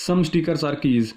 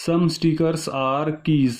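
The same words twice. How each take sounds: First: Said in the usual way. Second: "some stickers are keys" stretched out, each word separate; slow deliberate repeat. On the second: Shown as a demonstration. Teacher rereads the statement to check it, slow and deliberate.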